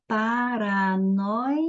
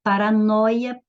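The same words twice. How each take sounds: First: "paranoia" drawn out slowly as pa-ra-noi-a; slow syllable-division demo of "paranoia". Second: Said in the usual way. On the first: Shown as a demonstration. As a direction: stretch each syllable of "paranoia", lingering on "noi". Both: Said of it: "separando as sílabas".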